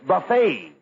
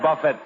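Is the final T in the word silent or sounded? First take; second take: silent; sounded. First: The final T is not pronounced. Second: The final T is pronounced. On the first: The speaker calls it right. "The T is silent" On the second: The speaker calls it wrong. "Not buffet supper"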